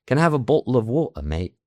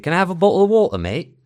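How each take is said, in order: First: Higher-pitched British with glottal stops in "bottle" and "water"; demonstrated everyday British accent, Ts swallowed. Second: Put-on loud, high British accent with dropped Ts; casual British, glottal stops in "bottle" and "water"; northern English street accent. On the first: Shown as a demonstration. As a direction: drop every T, British-style, through to "mate". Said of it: "la stop T". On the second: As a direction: blurt it in everyday British, swallowing the Ts. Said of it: "no digo la T".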